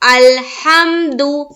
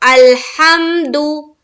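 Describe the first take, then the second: No difference in how they are said.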